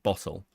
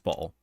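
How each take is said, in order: First: The word is said in a posh accent. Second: The word is said in a common accent. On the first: The speaker sounds upper class. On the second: The speaker sounds like ordinary people.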